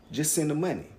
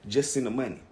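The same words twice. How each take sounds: The two takes are said the same way.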